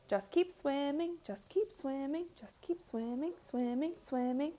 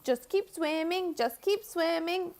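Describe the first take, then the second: First: Dory singsong. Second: High, slow cheerful Dory voice. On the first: Streamer quoting Dory from Nemo, soft singsong. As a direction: chant it like Dory. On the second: Streamer doing Dory from Finding Nemo, high and slow. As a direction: lilt it up like Dory. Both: Retold or imitated. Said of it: "Dory the fish from Nemo".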